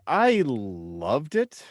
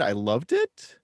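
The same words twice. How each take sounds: First: Rising at the end; "I loved it" ending on a rise; uptalk. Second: Said in the usual way. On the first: Real, not acted. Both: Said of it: "which I weirdly put with an upward inflection at the end".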